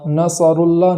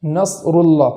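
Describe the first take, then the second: First: نصر اللہ with a vowel sounded after ص; wrong vowel on sad. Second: نصر اللہ with ص held still, no vowel; correct sukun on sad. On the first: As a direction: show the mistake, ص of نصر given a vowel. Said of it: "نصر اللہ نہیں پڑھنا ہے". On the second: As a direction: stop cleanly on ص of نصر, then go on. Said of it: "جزم کے ادا کرنے کا طریقہ". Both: Shown as a demonstration.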